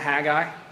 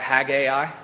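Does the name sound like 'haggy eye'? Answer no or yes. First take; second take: no; yes. First: The name does not sound like 'haggy eye'. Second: The name sounds like 'haggy eye'. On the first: "I'll be calling it Haggai" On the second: "Haggai sounds like some sort of eye disease"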